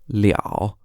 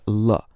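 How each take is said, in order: First: It is said as liao in the third tone. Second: It is said as le with no tone. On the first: "pronounced liao in the third tone when it's used as a result complement" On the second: "also pronounced l, L-E, with no tone"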